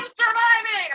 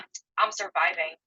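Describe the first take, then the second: First: It sounds upbeat and positive. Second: It sounds defeated and negative.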